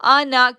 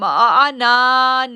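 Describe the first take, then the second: First: The final vowel is kept short. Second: The final vowel is drawn out long. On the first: The speaker calls it right. "आना को खींचेंगे नहीं" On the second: The speaker calls it wrong. "हम आना नहीं पढ़ेंगे"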